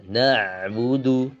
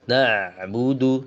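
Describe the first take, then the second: Both takes have the same delivery.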